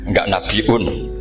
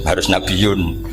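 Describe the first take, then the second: First: The word has a glottal stop before the ending. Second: The word has a y sound, no glottal stop.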